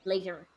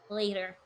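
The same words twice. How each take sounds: First: It is said in a non-American accent. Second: It is said in an American accent.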